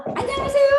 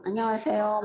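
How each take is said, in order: First: High, beaming hello; bright cheerful greeting. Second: Dull mumbled greeting. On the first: 반가운 손님에게 인사하듯 높고 밝게 맞이하기. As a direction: greet them like you're thrilled to see them. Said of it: "이렇게 하고 싶은데". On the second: 반가운데도 무뚝뚝하게 중얼거리는 인사. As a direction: mumble it without looking up. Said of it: "막 이래요, 제가". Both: Shown as a demonstration.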